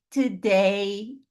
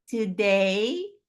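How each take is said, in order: Both takes have the same delivery.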